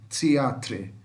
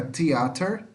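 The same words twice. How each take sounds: First: "Teatre" closing on "tre", tune falling; British-spelling -tre ending. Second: "theater" closing on -ter, tune rising; American -ter ending. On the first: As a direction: say "Teatre" with a sounded tre at the end. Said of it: "aqui fica tre no final". ("Teatre" com "tre" no final, entonação descendente) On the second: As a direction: say "theater" as the American form, r last. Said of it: "Aqui fica theater". ("theater" à americana, com "ter" no final) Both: Shown as a demonstration.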